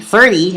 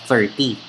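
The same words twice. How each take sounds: First: The word is said in an affected, polished way. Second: The word is said in a casual, plain way. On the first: The speaker calls it right. "It has to be thirty" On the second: The speaker calls it wrong. "instead of thirty"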